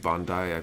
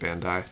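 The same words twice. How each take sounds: First: The name is given a Japanese-style pronunciation. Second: The name is given an Americanized pronunciation. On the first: The speaker calls it right. "it should be Bandai" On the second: The speaker calls it wrong. "I always pronounce it Bandai ... the Americanized pronunciation"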